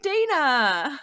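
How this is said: The name is said with an American pronunciation. "American streamer, they're like Dana"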